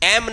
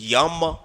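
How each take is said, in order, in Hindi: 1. यह सादे 'e' स्वर से शुरू होता है। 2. यह स्वर से पहले 'y' की हल्की ध्वनि से शुरू होता है।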